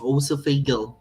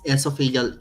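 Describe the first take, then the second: First: It begins with an 'oh' sound, British style. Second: It begins with an 'eh' sound, Filipino style.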